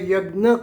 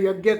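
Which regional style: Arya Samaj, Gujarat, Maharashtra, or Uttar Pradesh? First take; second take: Maharashtra; Uttar Pradesh. First: It is pronounced the Maharashtra way. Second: It is pronounced the Uttar Pradesh way. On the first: "Maharashtra में यज्ञ कहा जाता है" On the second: "Uttar Pradesh में यज्ञ कहा जाता है"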